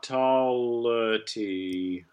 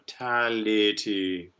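First: The first vowel shifts away from the bright a. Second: The first vowel is a bright open a. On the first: The speaker calls it wrong. "not tality" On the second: The speaker calls it right. "Tal stays that ah, the cat vowel"

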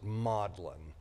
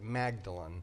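First: It is pronounced differently from the spelling. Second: It is pronounced the way the spelling looks. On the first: This is how the locals actually say it. The speaker calls it right. "But they pronounce it" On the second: This is how the spelling suggests it is said. The speaker calls it wrong. "It looks like you'd say it"

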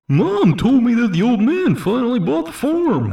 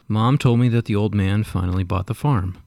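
First: It is read in a put-on D-Bag voice. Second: It is read in his normal voice.

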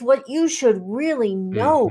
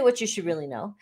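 First: The phrase is said with strong, energetic emphasis. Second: The phrase is said flatly, without extra emphasis. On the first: The speaker calls it right. "It's what you should really know" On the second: The speaker calls it wrong. "don't say what you should really know"

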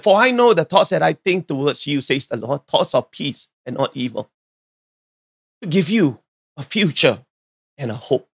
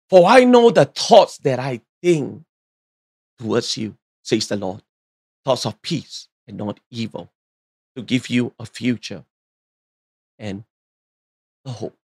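First: It is said at a normal pace. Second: It is said slowly and deliberately.

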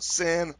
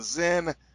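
First: The name is said like Sin. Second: The name is said like Zen. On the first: The speaker calls it right. "It's pronounced Sin" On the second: The speaker calls it wrong. "however you choose to pronounce that"

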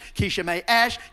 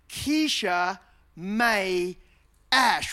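First: The name is said very fast, run together. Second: The name is said at a normal pace. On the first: It sounds like a rude phrase. "you say it really fast on the playground" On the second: It sounds like an ordinary name. "which sounds fine"

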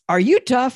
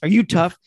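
First: It is said in a nice, gentle tone. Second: It is said in a harsh, tough tone.

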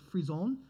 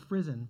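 First: The word is pronounced with French sounds. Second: The word is pronounced with English sounds. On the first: "I'll do it the French way" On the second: "The other stuff said it was frisson"

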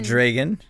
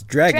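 First: The first syllable sounds like 'dre'. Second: The first syllable sounds like 'dra'. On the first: The speaker calls it wrong. "Not dragon. ... Not dre" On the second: The speaker calls it right. "It's dragon, dragon. ... Dra"

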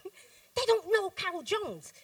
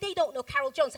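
First: It is said with a sassy, attitude-filled tone. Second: It is said in a grave, serious tone. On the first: The speaker is ready to confront someone. "Sometimes we'll say it with a bit of attitude" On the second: The speaker truly feels misunderstood. "if we're really serious"

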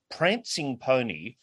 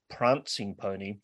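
First: It is said in a North Bendigo accent. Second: It is said in a South Australian accent. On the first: The speaker calls it wrong. "like someone from North Bendigo" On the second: The speaker calls it right. "clearly it should be"

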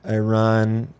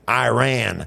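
First: It is said in a standard accent. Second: It is said in a Texan accent.

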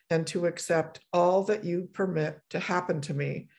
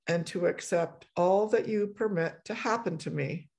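Both takes have the same delivery.

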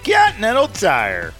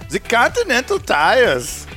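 First: It is said without a German accent. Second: It is said in a German monster-truck voice.

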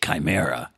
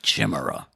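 First: The word has its usual everyday pronunciation. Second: The word is sounded out as it is spelled. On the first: This is how people actually say the word. "we wouldn't say chimera" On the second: This is how the word would sound if spelling rules held. "If all that hooked on phonics shit were actually true"

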